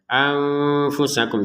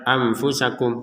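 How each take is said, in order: First: The n is hidden with a held nasal sound. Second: The n is pronounced plainly without holding it. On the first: The speaker calls it right. "kita baca dengan samar" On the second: The speaker calls it wrong. "jangan sekedar anfusakum. Nah, ini kurang"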